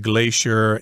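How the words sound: It is said the American way.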